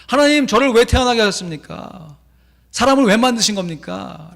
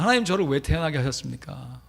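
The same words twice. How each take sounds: First: Loud, high, anguished protest; complaining prayer. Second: Said in the usual way. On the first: Retold or imitated. Carver complaining to God, loud and high. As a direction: hurl the question at God. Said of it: "원망하며 기도해요". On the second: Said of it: "하나님께 따지는 게 그거잖아요".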